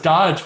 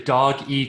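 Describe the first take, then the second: First: The name is said as one syllable, like dodge. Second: The name is said as two syllables, like doggy. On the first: The speaker calls it wrong. "I thought it was Dodge" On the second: The speaker calls it right. "it's actually Doggy Coin"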